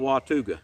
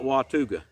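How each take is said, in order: First: The middle syllable sounds like 'too'. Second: The middle syllable sounds like 'too'.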